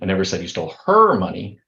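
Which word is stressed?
her. The stress is on "her".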